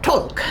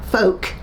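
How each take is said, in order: First: The word begins with a t sound. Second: The word begins with an f sound. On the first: A child's mispronunciation of the word. The speaker calls it wrong. "she couldn't pronounce the words properly" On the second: The intended word, said properly. The speaker calls it right. "she was supposed to say folk"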